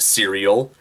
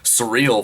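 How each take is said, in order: First: The word sounds like 'serial'. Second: The word sounds like 'surreal'. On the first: The speaker calls it right. "I know that it's pronounced serial" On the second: The speaker calls it wrong. "I mispronounced the word serial and pronounced it as surreal"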